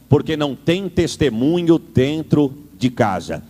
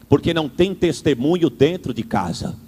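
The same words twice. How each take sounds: First: It is said slowly with pauses between words. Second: It is said at a normal speaking pace.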